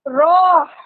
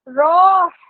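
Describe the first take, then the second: First: The vowel sounds like 'ah'. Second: The same.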